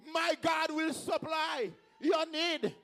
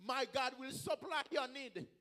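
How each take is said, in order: First: High, drawn-out preacher's shout; raised, stretched declaration; slow proclaiming shout. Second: Said in the usual way. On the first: Real, not acted. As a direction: proclaim it slowly to the whole congregation. Repeats verse, building to shout.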